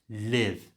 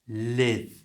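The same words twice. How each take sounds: No difference in how they are said.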